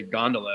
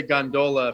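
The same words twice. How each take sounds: First: Gondola stressed on the first syllable, GON-duh-la; standard GON-duh-la. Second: Gondola stressed on the middle, gon-DOH-la; local gon-DOH-la. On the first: Saying it as in Switzerland, GON-duh-la. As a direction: hit GON, shrink the middle of gondola. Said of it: "if I was in Switzerland". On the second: Naming the thing up there the local way, gon-DOH-la. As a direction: put a long DOH in gondola. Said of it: "I would say gondola for the thing". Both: Shown as a demonstration.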